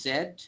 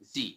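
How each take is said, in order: First: The letter name is said as zed. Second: The letter name is said as zee. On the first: "British English অনুযায়ী এটাকে হয় জেড" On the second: "American ইংলিশে এটাকে বলা হয় জি"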